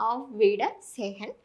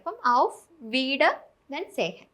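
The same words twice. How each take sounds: First: "ഔഫ് വീഡർ സേഹൻ" slowly as one phrase; joined up whole. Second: "ഔഫ് വീഡർ" said slowly, pause, then "സേഹൻ"; split into parts. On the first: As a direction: put "ഔഫ് വീഡർ സേഹൻ" back together, slow and careful. ("ഔഫ് വീഡർ സേഹൻ" ഒറ്റ വാക്യമായി പതുക്കെ) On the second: ("ഔഫ് വീഡർ" പതുക്കെ, നിർത്തി "സേഹൻ" എന്ന് മുറിച്ച് പറയുക) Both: Shown as a demonstration. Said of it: "നടുക്കൂന്ന് cut ചെയ്യാം".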